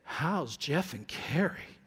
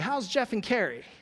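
First: The question sounds knowing, hushed and suggestive. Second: The question sounds open, warm and friendly. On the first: It hints that something is wrong with them. The speaker calls it wrong. "your tone is suggesting something is wrong" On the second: A sincere question about how they are doing. The speaker calls it right. "if you come up to me and you say"

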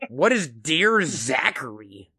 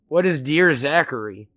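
First: The question is asked in an exaggerated, emphatic way. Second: The question is asked in a subtle, understated way. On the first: The speaker makes it obvious they have no idea what it is. "make it a little less subtle" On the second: The speaker quietly signals not knowing what it is. "with the tone I just gave you"

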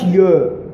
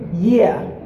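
First: The word is said in a local Southern accent. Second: The word is said in standard English. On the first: The speaker calls it wrong. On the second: The speaker calls it right.

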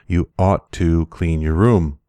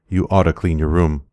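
First: Ought to is said as two full words. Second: Ought to is blended into one word, oughta.

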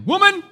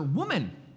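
First: It is said with a sassy attitude. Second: It is said plainly, without attitude.

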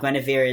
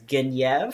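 First: The name is pronounced the English way. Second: The name is pronounced the French way.

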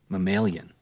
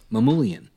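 First: The name sounds like the word mammalian. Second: The name is said as Mamoulian. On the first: The speaker calls it wrong. "You said like mammalian" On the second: The speaker calls it right. "How do you say it?"

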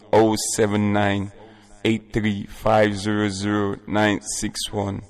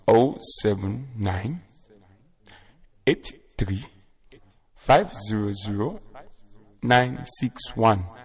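First: The number is said at a faster pace. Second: The number is said at a slow pace.

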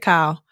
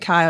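First: The name is said in a Black American style. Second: The name is said in a standard style. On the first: "They say Kyle"

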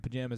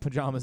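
First: The word is said with a country accent. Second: The word is said with a standard accent. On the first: The speaker calls it wrong. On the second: The speaker calls it right.

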